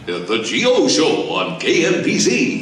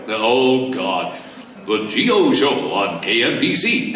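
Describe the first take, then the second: First: Slow, rich radio announcer voice; slow booming radio jingle read; Gary Owens impression. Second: Rich radio announcer voice; the old radio jingle, announcer style; Gary Owens impression. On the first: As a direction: roll it out like a DJ naming his show. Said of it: "He sounded like that". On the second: Shown as a demonstration. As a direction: play the DJ naming his show. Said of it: "best impression of you".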